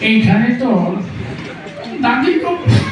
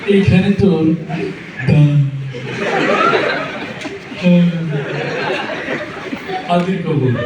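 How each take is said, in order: First: It is recited in an old man's voice. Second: It is recited with a stammer. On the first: "বুড়ো মানুষ পান খেতে খেতে আসছে... মুরব্বীর আবৃত্তির ঢং ছিল এরকম।" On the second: "তোতলা তোতলা... তো তার আবৃত্তির ঢং ছিল এরকম।"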